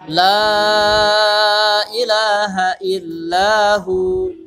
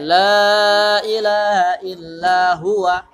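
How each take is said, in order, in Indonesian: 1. Huruf terakhir dibaca tanpa vokal. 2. Huruf terakhir diikuti vokal pendek. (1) "mesti uh, dimatikan dia huruf terakhirnya" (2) "Nggak boleh"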